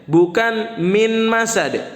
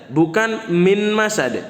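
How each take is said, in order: No difference in how they are said.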